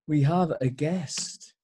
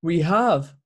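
First: "we have a guest" said slowly, drawn out for suspense; dramatic pause. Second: Said in the usual way. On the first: Shown as a demonstration. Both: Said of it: "So here it is".

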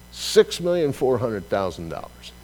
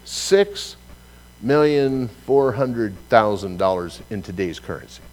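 First: Said in the usual way. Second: Lifted Six, then a pause; stress on Six. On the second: Shown as a demonstration. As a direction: hit Six and hold a beat before million. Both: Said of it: "Think about that one for a moment".

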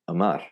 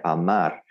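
First: "Amar" starting on a short weak uh; English schwa mistake. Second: "Amar" with a full opening ah; Spanish pronunciation. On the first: Teacher imitates learners' mistake, "Amar" as quick uh-MAR. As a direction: say "Amar" as uh-MAR, first vowel swallowed. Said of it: "what they'll do is they'll go". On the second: Teacher models the word for love, "Amar" in clean Spanish vowels. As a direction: keep both A's of "Amar" clear ah sounds. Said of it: "the word to love in Spanish". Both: Shown as a demonstration.

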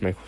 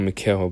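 First: Said in the usual way. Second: "Mikael" said as mee-kah-EL; "Mikael" read out the way it was written, mee-kah-EL; the mistaken "Mikael", kah-EL ending; misread name. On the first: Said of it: "but it's Michael Shane". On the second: Shown as a demonstration. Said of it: "I don't know why I put Mikael".

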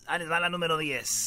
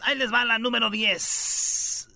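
First: Said in the usual way. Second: Slow, drawn-out radio announcement of story ten; big showman intro, a touch slower; announcer. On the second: Shown as a demonstration. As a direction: present it like a showman. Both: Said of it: "vamos con la diez, señores".

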